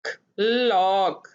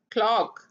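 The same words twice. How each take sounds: First: clock stretched out slowly, vowel held long; teacher draws out clock sound by sound; slow blending. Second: Said in the usual way. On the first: Shown as a demonstration. Phonics teacher to pupils, stretching the word slowly. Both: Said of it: "क्या बना?".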